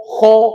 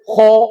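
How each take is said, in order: First: The lips are pushed forward and rounded. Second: The same.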